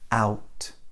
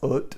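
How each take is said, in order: First: The vowel is a gliding 'ow' sound. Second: The vowel is a short, flat 'uh' sound. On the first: The speaker calls it right. "It's a, u, out" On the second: The speaker calls it wrong. "It's not ut or anything else like that"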